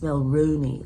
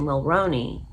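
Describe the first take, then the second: First: The middle syllable rhymes with the end of kangaroo. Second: The middle syllable does not rhyme with kangaroo. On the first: The speaker calls it right. "like in the end of kangaroo" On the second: The speaker calls it wrong. "I've been saying Jessica Mulroney's name wrong"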